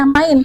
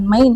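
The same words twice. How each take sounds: First: MAIN with an A-I glide, like "mine"; correct German vowel. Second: MAIN with E-I as spelt, like "mayn"; mispronounced vowel. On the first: Teacher showing how E I is read, correct A-I in "main". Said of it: "itu bacanya A I". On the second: Teacher showing what to avoid, wrong E-I in "main". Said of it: "bukan main". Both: Shown as a demonstration.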